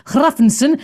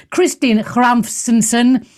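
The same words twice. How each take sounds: First: Hrafnsson finally said as HRAF-en-son with a clear h, rising; corrected name. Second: Hrafnsson stumbled, slow and unsure, x-like rasp at the start; fumbled name. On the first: Host getting the guest's name right after fumbling, careful. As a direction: Hrafnsson landed carefully, syllable by syllable. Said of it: "Hraf-, bloody hell". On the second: Host reading a panel guest's name, stumbling over Hrafnsson. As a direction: Hrafnsson said haltingly as xramfsinson. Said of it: "that's terrible". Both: Real, not acted.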